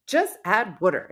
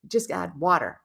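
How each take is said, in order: First: "water" as "wooder"; New Jersey pronunciation. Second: Said in the usual way. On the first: Retold or imitated. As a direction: say "water" with the vowel of "wood". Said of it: "I'm saying water". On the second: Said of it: "The word water".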